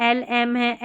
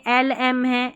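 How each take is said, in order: Both takes have the same delivery.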